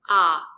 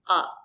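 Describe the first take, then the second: First: The vowel is open and fully sounded. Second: The vowel is closed and very short. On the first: The syllable is stressed. "The letter A makes an open sound" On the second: The syllable is not stressed. "The letter A makes a closed sound and it's short"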